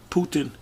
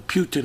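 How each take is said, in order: First: "Putin" with a plain oo, no y-glide; POO-tin pronunciation. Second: "Putin" with a y-glide before the oo; PYOO-tin pronunciation. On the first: Commentator unsure of the Russian leader's name, "Putin" said POO-tin. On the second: Commentator offering another way to say the name, "Putin" said PYOO-tin. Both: Shown as a demonstration. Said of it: "however you say his name".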